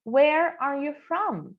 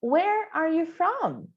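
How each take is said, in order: First: Said in the usual way. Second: Slow demo. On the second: Shown as a demonstration. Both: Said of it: "let's repeat".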